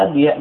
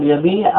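First: يبيع as yab-yi', y as a consonant; underlying form. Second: يبيع as yabii', with long ii; usual pronunciation. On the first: Teacher giving the word's origin, yab-yi' sounded out. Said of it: "أصله يبيع". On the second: Teacher telling students how to pronounce it, yabii' with long vowel. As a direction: say يبيع smoothly as ya-bii'. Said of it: "كيف تنطق به؟ قل". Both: Shown as a demonstration.

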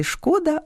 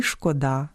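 First: ШКО́да, first syllable stressed and high; шкода with the stress on ШКО. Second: ШкодА́, second syllable stressed; шкода with the stress on ДА; stress on last syllable. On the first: (наголос на першому складі: шко́да) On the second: (наголос на останньому складі: шкода́) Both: Shown as a demonstration. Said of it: "у правильному наголошуванні яких".

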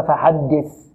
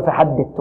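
First: فحدث ending in a hissed "th"; soft interdental thaa. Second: فحدث ending in a hard "t"; stop for thaa. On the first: Teacher giving the correct ending, interdental th. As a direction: finish فحدث with tongue tip at the teeth, "th". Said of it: "وإنما فحدث". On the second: Teacher showing what not to say, final t. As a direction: show the error, "fahaddit" for فحدث. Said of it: "لا نقول فحدث". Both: Shown as a demonstration.

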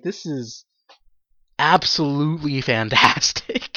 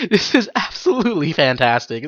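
First: Quiet, slow, stunned delight; hushed, slowed-down amazement; deadpan awe. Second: Said in the usual way. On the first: Retold or imitated. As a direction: murmur it like you can't believe it.

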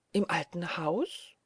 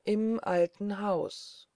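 First: Startled question, stretched out and rising steeply. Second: Very slow, musing statement, falling end; slow and hushed. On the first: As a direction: ask it slowly in mild alarm. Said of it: "rief Marie erschrocken". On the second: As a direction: draw it out, as if to yourself. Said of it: "sagte der Famulus langsam und leise". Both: A narrator's reading.

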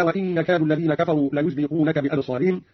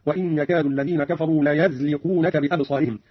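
First: Said in the usual way. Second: ليزلقونك said layazliqunaka with a on the ya; fatha on ya. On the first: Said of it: "قرأ قالون بفتح الياء من ليزلقونك". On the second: Shown as a demonstration. Teacher demonstrates Qalun's fatha on the ya. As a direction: open the ya of ليزلقونك with a. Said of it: "هكذا".

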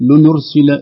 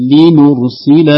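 First: لنرسل with the i swallowed toward u; wrong vowel blur. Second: Slow لنرسل with kasra and damma each crisp; careful clear vowels. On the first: Teacher imitating a common error, blurred vowels. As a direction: say لنرسل letting the kasra slide into the damma. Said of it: "فبعض يقول". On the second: Teacher modelling the correct form, slow careful vowels. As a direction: say لنرسل slowly, giving every vowel its own place. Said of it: "فينبغي التحقيق لنرسل هكذا". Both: Shown as a demonstration.

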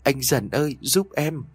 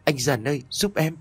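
First: Crying harder. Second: Sobbing plea. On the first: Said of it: "khóc lớn hơn". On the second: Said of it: "khóc nức nở". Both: A narrator's reading.

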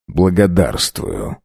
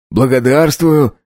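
First: «Благодарствую» slow and low, falling; calm gentleman. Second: Higher, slow, hearty «Благодарствую»; «Благодарствую» lifted up, then falling; eager coachman. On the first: The count thanks quietly. (сдержанно, низко «Благодарствую») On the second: Coachman thanks for coins. (радостно «Благодарствую») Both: A narrator's reading.

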